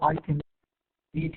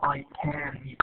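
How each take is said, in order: First: The word "can" has a weak, reduced vowel. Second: The word "can" has a full, stressed vowel. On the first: The speaker calls it right. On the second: The speaker calls it wrong. "We don't say"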